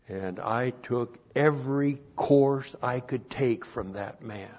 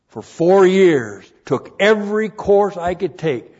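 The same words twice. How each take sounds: First: Said in the usual way. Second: Loud, higher, slowed emphasis; preaching shout. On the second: Real, not acted. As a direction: drive it home to the congregation. Repeats phrase, now shouted.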